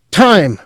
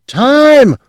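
First: High loud call; the clerk cries out the signal; cried out. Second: Piercing very high shriek; frantic high loud shriek. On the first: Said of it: "the clerk cried". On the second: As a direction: scream it in panic. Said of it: "the clerk shrieked". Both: A narrator's reading.

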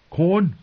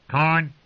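First: Said in the usual way. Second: Squawking bird call, clipped and raspy; raven voice. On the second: Acted. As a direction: croak it like a talking raven. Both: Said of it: "said Mormont's raven".

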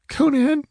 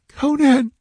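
First: Very high, plaintive little call; faint whimper. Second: Very high, more urgent call; whimpered plea. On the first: Exhausted false goddess calling to her hidden ally, whimpering. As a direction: whimper the name for help. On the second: Frightened woman calling her hidden ally a second time, urgent whimper. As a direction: whimper the name louder, pleading. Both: A narrator's reading. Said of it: "she whimpered faintly".

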